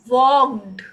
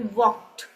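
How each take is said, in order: First: The word ends with a forced d sound. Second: The word ends with a light t sound. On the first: The speaker calls it wrong. "नहीं" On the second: The speaker calls it right. "आप कहेंगे वॉक्ड"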